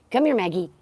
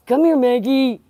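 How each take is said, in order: First: Said in the usual way. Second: Calling. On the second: Real, not acted. Calling the dog louder.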